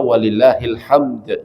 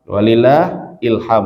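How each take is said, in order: First: The phrase ends on a d sound. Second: The phrase ends on an m sound. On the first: It means all praise belongs to God. The speaker calls it right. "Jadi yang tepat dibaca walillahil hamd" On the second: It means inspiration belongs to God. The speaker calls it wrong. "biasanya orang-orang kalau baca walillahil hamd, walillah ilham"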